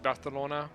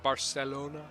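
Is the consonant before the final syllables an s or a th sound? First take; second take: th; s. First: The middle consonant is a th sound. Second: The middle consonant is a plain s sound. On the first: This is the Spanish way. The speaker calls it right. "I think it's supposed to be Barcelona" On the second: This is the usual American way. The speaker calls it wrong. "not Barcelona"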